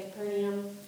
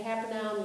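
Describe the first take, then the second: First: Capernaum said as "kuh-PER-nee-um"; Capernaum in four syllables, kuh-PER-nee-um; the other pronunciation. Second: Capernaum said as "KAP-er-now-m"; Capernaum in three syllables, KAP-er-now-m; speaker's own pronunciation. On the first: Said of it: "you say Capernaum". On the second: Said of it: "I say Capernaum". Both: Shown as a demonstration.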